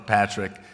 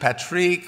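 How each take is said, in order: First: The name is said with an English accent. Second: The name is said with a French accent. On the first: "French or English" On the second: "French or English"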